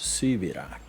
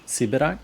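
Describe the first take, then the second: First: The word is said the Polish way. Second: The word is said the Russian way. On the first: It means a political prisoner exiled to Siberia. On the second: It means someone from Siberia.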